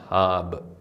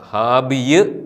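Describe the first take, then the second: First: The word ends on 'b' with no 'iy' sound. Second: The word ends with an added 'iy' sound. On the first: The speaker calls it right. "ഈ പദം ഹാബ്" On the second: The speaker calls it wrong. "ഹാബിയ് എന്ന് വായിക്കേണ്ട"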